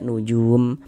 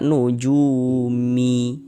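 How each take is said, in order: First: The word ends on a closed m sound. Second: The word ends with an added short i vowel. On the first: The speaker calls it right. "tapi dibaca nujum" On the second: The speaker calls it wrong. "Jangan dibaca nujumi"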